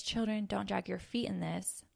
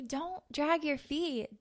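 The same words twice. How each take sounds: First: Said in the usual way. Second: Slower and higher, a measured order from God; God's firm command. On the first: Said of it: "when I hear this verse where it says". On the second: Acted. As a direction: spell it out slowly like a loving but firm command. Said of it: "he's telling you".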